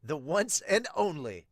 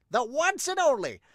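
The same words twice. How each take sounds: First: Said in the usual way. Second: Much higher and louder echo; rising dramatic shout. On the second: Acted. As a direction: repeat it as a rallying cry.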